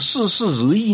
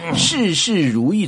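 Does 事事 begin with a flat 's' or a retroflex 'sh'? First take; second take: flat s; retroflex sh. First: 事事 starts with a flat 's' sound. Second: 事事 starts with a retroflex 'sh' sound. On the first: It sounds like only forty-four percent going well. The speaker calls it wrong. "怎么会变成" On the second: It wishes that every matter goes well. The speaker calls it right. "发音标准的"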